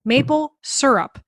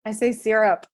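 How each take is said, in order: First: "Maple syrup" said slowly with syrup as "sur-up"; imitating [name]'s Pennsylvania "syrup" as "sur-up"; South Central Pennsylvania pronunciation. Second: "syrup" said as "sir-up", with the "i" of sit; answering with "syrup" as "sir-up"; "sir-up" pronunciation. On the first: Host imitates cohost's Pennsylvania "syrup". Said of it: "That is a South Central Pennsylvania way of saying it". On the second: Shown as a demonstration. Cohost answers how she says "syrup", "sir-up". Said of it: "how do you say syrup".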